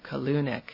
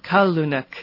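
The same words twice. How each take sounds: First: The stress is on a later syllable. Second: The stress is on the first syllable. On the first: The speaker calls it wrong. "instead of" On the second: The speaker calls it right. "The stress goes on the first syllable"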